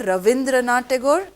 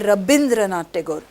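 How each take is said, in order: First: The name is said with a V sound. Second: The name is said with a B sound. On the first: The speaker calls it wrong. "they say Ravindranath Tagore. No" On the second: The speaker calls it right. "they pronounce V as B"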